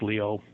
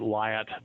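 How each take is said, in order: First: The name ends in a vowel, like Leo. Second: The name is said with a final t sound. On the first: This is the original French pronunciation. The speaker calls it right. "but it's actually Leo, pronounced Leo" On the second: This is how an English speaker would read it. The speaker calls it wrong. "we'd pronounce it Lyot"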